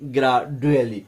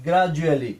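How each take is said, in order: First: The middle consonant is a plain 'd' sound. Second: The middle consonant is a 'j' sound. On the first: The speaker calls it wrong. "Not গ্রাডুয়ালি" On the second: The speaker calls it right. "এই কারণে আমরা গ্রাজুয়ালি বলি"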